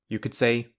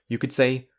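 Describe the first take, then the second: The two takes are said the same way.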